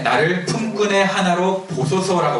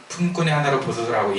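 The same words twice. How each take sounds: First: 품꾼의 lifted higher and drawn out slowly; slow emphasis. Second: Said in the usual way. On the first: Shown as a demonstration. Preacher stresses the missing line of the verse, slow and high. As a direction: stretch out 품꾼의 high and slow, then fall. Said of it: "그 다음에". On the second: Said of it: "무슨 말 하려고 할 때".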